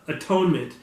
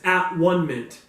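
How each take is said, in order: First: The word is said smoothly as one unit. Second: The word is split into three separate parts.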